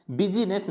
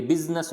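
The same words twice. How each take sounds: First: बिजीनेस as bi-ji-nes, three syllables; बिजीनेस, middle I wrongly pronounced; sounded I. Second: बिजनेस as biz-nes, two syllables; बिजनेस, middle I left mute; silent I. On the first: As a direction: voice an ee before the n in बिजीनेस. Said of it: "बिजीनेस नहीं होता". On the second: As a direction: close z straight onto n in बिजनेस. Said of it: "ये बिजनेस होता है". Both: Shown as a demonstration.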